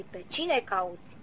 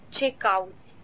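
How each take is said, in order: First: "cine" slowed and leaned on, falling at the end; slow, quiet, pressing hard on "cine"; stress on cine. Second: Said in the usual way. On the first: Shown as a demonstration. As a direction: set "cine" apart slowly, softer. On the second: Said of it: "Observăm că Domnul Isus n-a întrebat-o".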